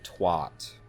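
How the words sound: It uses a non-British pronunciation of the vowel. The speaker calls it wrong. "Why does everyone outside of the U K say twat?"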